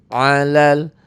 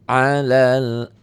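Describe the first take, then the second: Both takes have the same delivery.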